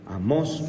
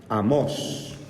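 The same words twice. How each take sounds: First: Amós with the stress on the final O, a-MÓS. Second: Said in the usual way. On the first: Shown as a demonstration. Teacher correcting the class's stress, acento en la O de Amós. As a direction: lean on the last syllable of Amós. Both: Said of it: "porque tiene acento en la O".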